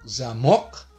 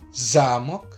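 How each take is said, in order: First: The stress is on the second syllable. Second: The stress is on the first syllable. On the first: It means a padlock. "Kalau tekanannya di mok" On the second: It means a castle. "kalau tekanannya di za"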